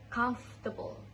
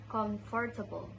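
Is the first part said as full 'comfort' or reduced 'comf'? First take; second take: reduced; full. First: The first part is shortened to 'comf'. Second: The first part is said as full 'comfort'. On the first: The speaker calls it right. "it should be comf" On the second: The speaker calls it wrong. "I said comfortable"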